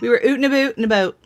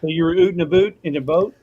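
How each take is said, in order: First: Put-on playful Canadian accent, fast. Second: Mock Canadian "oot and aboot"; teasing Canadian vowels; Canadian accent. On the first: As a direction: echo it back in a Canadian accent. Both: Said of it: "That was before my Canadian accent".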